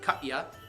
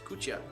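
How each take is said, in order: First: The word is said with an anglicized pronunciation. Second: The word is said with a Ukrainian pronunciation. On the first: The speaker calls it wrong. "If you're not Ukrainian, you'd pronounce it katya" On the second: The speaker calls it right. "but it is kucha"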